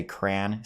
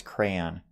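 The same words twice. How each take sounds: First: "crayon" as one syllable, CRAN; usual pronunciation. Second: "crayon" said as first read, CRAY-on; misreading. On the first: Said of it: "I would just say crayon". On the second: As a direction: say "crayon" with two syllables. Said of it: "as I read it, I'm like". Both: Shown as a demonstration.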